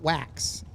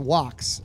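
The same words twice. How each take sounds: First: The vowel sounds like the vowel in 'cat'. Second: The vowel sounds like the vowel in 'box'. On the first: This is how the spelling suggests it is said. The speaker calls it wrong. "not wax" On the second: This is how locals say the town name. The speaker calls it right. "It's wax, not wax"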